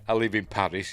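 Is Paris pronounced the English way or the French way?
English. Paris is said with an English pronunciation. The speaker calls it wrong. "you don't say I live in Paris"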